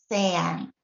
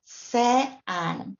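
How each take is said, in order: First: "sean" joined up as SE-an, said slowly; stress on first syllable. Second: "se and" said as two split syllables, SE, AN; separate syllables. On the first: Teacher putting the word back together, "sean" slowly stressed SE-an. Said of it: "the stress would obviously be here". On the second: Teacher showing two strong vowels pulling apart, "se and" split as SE, AN. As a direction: pull "se and" apart into SE and AN. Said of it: "two separate syllables are formed". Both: Shown as a demonstration.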